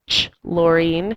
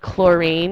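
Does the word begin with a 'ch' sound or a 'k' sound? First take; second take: ch sound; k sound. First: It begins with a ch sound. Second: It begins with a plain k sound. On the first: The speaker calls it wrong. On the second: The speaker calls it right.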